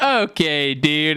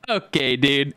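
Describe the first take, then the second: First: Friend's catchphrase echoed back, lightly imitated; mildly put-on catchphrase reply; Fielding. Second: Mild mocking imitation of a friend; teasing mimicry at usual pitch; Fielding. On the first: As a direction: mimic the friend replying in kind. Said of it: "he'd respond with". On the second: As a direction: lightly parody a friend's catchphrase. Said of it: "mocking his voice".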